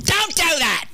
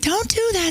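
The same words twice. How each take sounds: First: It is said in a sharp, stern tone. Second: It is said in a soft, sweet tone. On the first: The speaker calls it right. "She'd go" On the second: The speaker calls it wrong. "she wouldn't say it like that"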